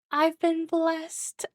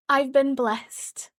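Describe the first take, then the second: First: Very high, very slow, lilting; stretched high singsong, gleeful; singsong blessed. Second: Slow, high and louder, savoring it; drawn-out happy proclamation; delighted. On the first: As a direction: sing it out like a gift from heaven. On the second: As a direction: bask in the good luck. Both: Real, not acted.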